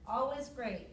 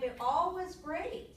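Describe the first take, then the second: First: Said in the usual way. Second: Slow, drawn out, rising on all; emphatic. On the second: Shown as a demonstration. Teacher stressing how well it turned out: slow, rising on all. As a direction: lean into all with a lift.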